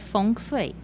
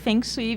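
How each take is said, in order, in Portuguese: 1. É dito com a pronúncia chinesa. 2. É dito do jeito que a ortografia portuguesa sugere. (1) "no norte da China, a pronúncia correta é Feng Shui" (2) "aí peçam pelo Feng Shui mesmo"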